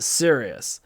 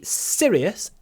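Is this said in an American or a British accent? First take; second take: American; British. First: It is said with an American accent. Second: It is said with a British accent. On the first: "В американском английском они одинаково произносятся" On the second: "А британский английский serious"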